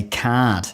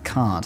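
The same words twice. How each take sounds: First: "card" with a fronted vowel and no R, kaad; broad Aussie pronunciation. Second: Said in the usual way. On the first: Shown as a demonstration. Briton overdoing how Aussies say it, Aussie pronunciation. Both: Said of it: "Aussies will say card".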